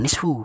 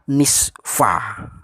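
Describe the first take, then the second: First: The word ends with a 'u' vowel. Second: The word ends with an 'a' vowel. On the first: The speaker calls it wrong. "Bukan nisfu" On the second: The speaker calls it right. "Kalau didahulu ila jadinya illa nisfa"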